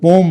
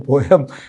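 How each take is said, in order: First: The word is said as one syllable. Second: The word is said as two syllables. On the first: This is how people say it nowadays. "आजकल पोम बोलते हैं इसे" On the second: This form is not heard these days. "पोयम मैंने नहीं सुनी कभी"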